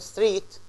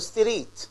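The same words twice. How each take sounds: First: The consonant cluster is said without an extra vowel. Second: A short vowel is inserted into the consonant cluster. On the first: The speaker calls it right. "instead of saying" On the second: The speaker calls it wrong. "or street ... And this is wrong"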